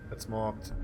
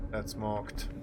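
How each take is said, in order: Both takes have the same delivery.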